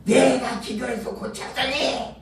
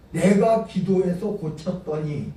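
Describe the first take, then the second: First: A hint of a bragging pastor, 내가 leaned on; lightly mock the pastor's self-praise; boasting pastor. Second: Said in the usual way. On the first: Preacher mimicking a boastful pastor claiming the healing. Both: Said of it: "또 나중에 뭐라 그러냐면".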